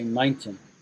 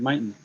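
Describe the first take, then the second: First: The T sound in the middle is pronounced. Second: The T sound in the middle is dropped. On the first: This is the British way of saying it. "We say mountain. The T comes out" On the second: This is the American way of saying it. "the way she said mountain"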